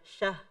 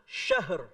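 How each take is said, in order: First: The word ends without any r sound. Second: The word ends with a light r sound. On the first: The speaker calls it wrong. "jangan jangan syah. R-nya mana?" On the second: The speaker calls it right. "Harus ada sifat ro-nya, kata para ulama, setengah"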